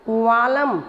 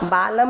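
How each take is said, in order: First: The word begins with a v sound. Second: The word begins with a b sound. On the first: The speaker calls it right. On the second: The speaker calls it wrong. "बालम नहीं"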